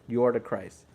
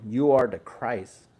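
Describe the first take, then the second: First: Said in the usual way. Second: Slow, weighty, each word given its place; slow emphatic declaration. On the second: Shown as a demonstration. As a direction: say "You are the Christ" slowly, as the true answer. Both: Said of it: "which is the right answer".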